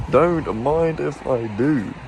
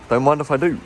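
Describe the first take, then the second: First: Slow, savouring every word; slow drawn-out. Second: Said in the usual way. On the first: Shown as a demonstration. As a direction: stretch it out playfully.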